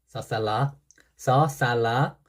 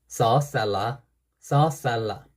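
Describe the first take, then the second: The two takes are said the same way.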